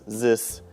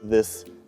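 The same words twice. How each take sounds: First: It begins with a z sound. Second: It begins with a th sound. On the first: The speaker calls it wrong. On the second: The speaker calls it right.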